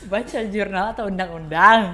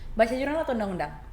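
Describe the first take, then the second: First: The question is spoken at a slow pace. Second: The question is spoken at a fast pace.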